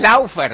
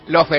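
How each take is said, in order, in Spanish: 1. La primera vocal es un diptongo au. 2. La primera vocal es una o simple. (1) "Y no es Laufer" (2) "Lofer, entonces"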